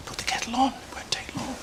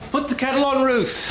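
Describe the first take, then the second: First: High, hushed aside, fading to whisper; confidential aside. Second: High, breezy call across the room. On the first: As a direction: slip it softly to a colleague. Aside to receptionist about patient. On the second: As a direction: call it out cheerily on a higher pitch. Doctor calls out to receptionist. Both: Acted.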